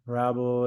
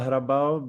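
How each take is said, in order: First: The name has an English pronunciation. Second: The name has a Czech pronunciation. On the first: This is how others usually say the name. "but people call me like Hrabal, Rabel" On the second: This is the original form of the name. "in Czech, it's like [name]"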